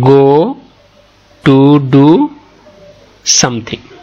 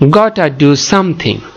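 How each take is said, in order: First: The words 'got to' are said as two words. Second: The words 'got to' merge into one short 'gotta'. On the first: "গো টু do something, something এভাবে বলতে পারবে" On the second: "এ গো টু এই অংশটাকে সংক্ষেপ করা হয়েছে গটা"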